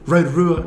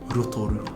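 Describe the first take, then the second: First: The R sounds are plain, not rolled. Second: The R sounds are rolled with the tongue. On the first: The speaker calls it wrong. "I don't want to hear Rotorua anymore" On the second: The speaker calls it right. "The rolling of the tongue in mm. that one for the R sounds"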